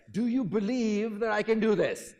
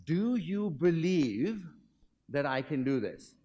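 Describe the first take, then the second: First: Louder, higher showman's call; rally a huge crowd with it; enacted Great Blondin. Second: Slow, drawn-out showman's question; a lightly voiced daredevil, slow and deliberate; Blondin asking the crowd. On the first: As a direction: daredevil shouting out to the crowd. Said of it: "enacting the Great Blondin". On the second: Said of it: "And the question is".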